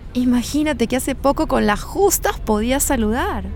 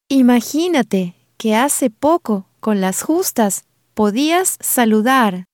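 First: It is said at normal conversational speed. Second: It is said slowly, with pauses between phrases.

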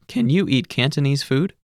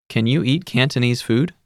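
Both takes have the same delivery.

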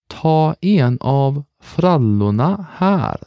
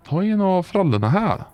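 First: It is said slowly and carefully. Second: It is said at normal conversational speed.

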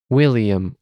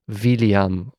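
First: The word begins with a W sound. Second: The word begins with a V sound. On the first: The speaker calls it right. "Another way of pronouncing the W is U" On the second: The speaker calls it wrong. "So we won't say William"

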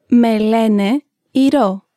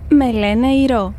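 First: It is said slowly and carefully. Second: It is said at normal conversational speed.

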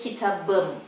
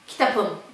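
First: The consonant before the ending is a b. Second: The consonant before the ending is a p. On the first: The speaker calls it right. "the P changes into to a B" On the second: The speaker calls it wrong. "It's really unnatural"

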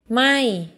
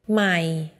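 First: The pitch starts high and falls. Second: The pitch stays low throughout. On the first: It means not or burning. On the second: It means new.

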